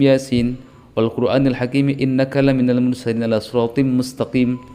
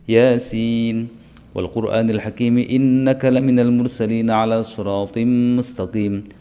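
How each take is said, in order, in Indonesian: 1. Semua dibaca rata tanpa perbedaan panjang. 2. Vokal panjang dan bunyi sengau tetap dibedakan. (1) "Kalau dibaca rata" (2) "harus seperti itu"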